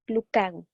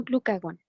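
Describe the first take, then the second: First: Glucagón with the stress on the final syllable, gón; correct stress. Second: Glucagón with the stress off the final syllable; wrong stress. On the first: Teacher gives students the right pronunciation, stress on gón. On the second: Teacher shows students the mistaken stress on glucagón. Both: Shown as a demonstration. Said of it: "No, no lleva acento en la O".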